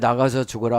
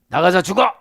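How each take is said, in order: First: It is said gently, in a joking tone. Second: It is said angrily, with force.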